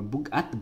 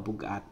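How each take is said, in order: First: The voice rises at the end. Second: The voice falls at the end. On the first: It asks whether something is heavy. "if you have like a rising intonation and you're talking to that person" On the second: It states that something is heavy. "you can just say, oh, bugat, because it's heavy"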